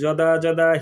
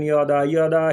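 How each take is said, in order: First: The first word begins with a 'j' sound. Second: The first word begins with a 'y' sound. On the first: "শুরুতে থাকলে যদাযদাহি বলতেছি" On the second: "কেউ উচ্চারণ করেন ইয়দা ইয়দা"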